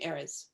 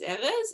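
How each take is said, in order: First: The name has an American English pronunciation. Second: The name has a Hebrew pronunciation. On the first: This is how the name is said at home here. "here we call him Erez" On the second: This is how the name is said in Israel. "When we go to Israel, he's Erez"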